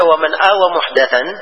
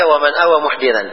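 First: The last word has an 'a' after the 'd'. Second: The last word has an 'i' after the 'd'. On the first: It refers to adopting the innovation itself. "siapa yang menganut bidah" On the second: It refers to protecting the person who innovates. "siapa yang melindungi pelaku bidah"

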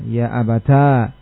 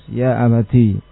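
First: The word ends in a long a vowel. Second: The word ends in a long i vowel. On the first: "mengumpulkan antara ta dengan alif" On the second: "dengan menetapkan ta dan ya-nya sekaligus"

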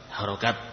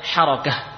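First: The word ends with a t sound. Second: The word ends with an h sound. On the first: The speaker calls it wrong. "kita mungkin menyebutnya harokat" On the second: The speaker calls it right. "Sebenarnya apa? Harokah"

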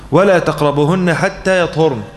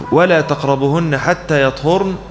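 No difference in how they are said.

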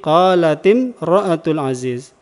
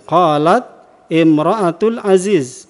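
First: The t of qalat takes an i vowel. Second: The t of qalat has no following vowel. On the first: The vowel is added so the words can be read joined. "diberi harokat kasrah. Menjadi qalatim ra'atul aziz" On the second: This is the original form with two sukuns meeting. "Asalnya demikian"

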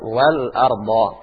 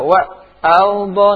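First: The l sound is pronounced clearly. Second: The l sound is not pronounced clearly. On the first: The speaker calls it right. "Di situ lamnya nampak. ... Tetap wal ardo" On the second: The speaker calls it wrong. "Tidak boleh kalian baca wa albo, enggak boleh"

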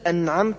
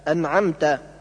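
First: The word ends in a u vowel. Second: The word ends in an a vowel. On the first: The speaker calls it wrong. "بضم التاء" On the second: The speaker calls it right. "بدل فتحها"

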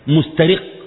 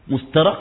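First: The r is followed by an i vowel. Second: The r is followed by an a vowel. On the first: Glancing stealthily, stealing a look. "مسترق بكسر الراء" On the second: Being enslaved or captured by the look. "مسترق من الرق"

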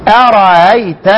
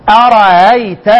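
No difference in how they are said.

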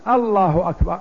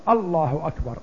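First: The opening vowel is drawn out long. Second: No vowel is drawn out unusually long. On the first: It asks whether God is greatest. The speaker calls it wrong. "لأن الذي يمد الهمزة أولا كأنه يستفهم" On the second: It firmly states that God is greatest. The speaker calls it right. "فتقول الله أكبر"

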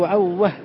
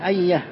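First: The y is replaced with a w sound. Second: The word has a doubled y sound. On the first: This is an irregular form used by some speakers. "هكذا بإبدال الياء واوا" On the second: This is the form the rule predicts. "أن يقال عيه لا عوه"

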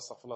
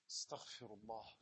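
First: It is rattled off mechanically without feeling. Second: It is said earnestly with heartfelt feeling. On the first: The words are said without really meaning them. The speaker calls it wrong. "Nicht nur Astaghfirullah" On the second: The speaker truly means it and feels remorse. The speaker calls it right. "sondern ich meine es"

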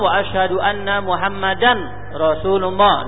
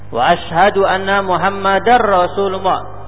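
First: The n is pronounced separately before the r. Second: The n merges into the following r sound. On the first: The speaker calls it wrong. "Kalau tanpa dengan idgham ... tidak sah" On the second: The speaker calls it right. "Baca dengan idgham"

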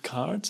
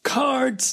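First: The word is said flatly, without exclaiming. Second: The word is said as a lively exclamation. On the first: The speaker calls it wrong. "nicht Cards" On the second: The speaker calls it right. "auch ein Ausrufezeichen am Ende"

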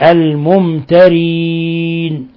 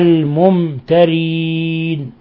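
Both takes have the same delivery.

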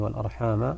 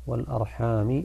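First: The word ends with a final 'a' vowel. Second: The word ends with a final 'i' vowel. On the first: It means one should also fear cutting family ties. "نحن نقرأ" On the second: It means people ask one another by their family ties. "بالجر"

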